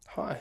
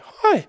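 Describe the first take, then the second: First: The greeting sounds relaxed and self-assured. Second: The greeting sounds eager and approval-seeking. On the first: The speaker sees the listener as an equal. The speaker calls it right. "I see people as equal. I come in" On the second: The speaker sees the listener as superior. The speaker calls it wrong. "that's like a rapport seeking tonality"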